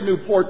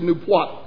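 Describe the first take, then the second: First: Newport is said in a general, non-local way. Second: Newport is said in the local Rhode Island way. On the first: This is not how locals say the name. "They don't say Newport" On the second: This is how locals say the name. "they said Newport over there"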